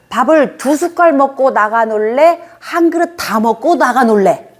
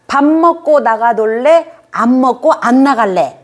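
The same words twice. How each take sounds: First: Slow, lilting parent offering two choices; good choice demo. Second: Higher, slow mock mother offering choices; lilting retold offer to the child; mother's offer. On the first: Shown as a demonstration. Parent coaxing a child to eat, slow and lilting. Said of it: "이렇게 해야죠". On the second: Retold mother offering her child a bad choice, slow. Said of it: "그렇게 선택지를 줬대요".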